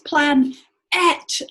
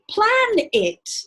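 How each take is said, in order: First: The second syllable is a clear 'et' sound. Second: The second syllable is a relaxed 'it' sound. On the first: This helps in remembering the spelling. "it's not an I, it's an E, it's plan et" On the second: This is how people normally say it. "because that's how you say it"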